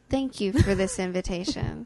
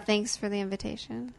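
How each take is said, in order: First: It sounds warm and sincere. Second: It sounds flat and sarcastic.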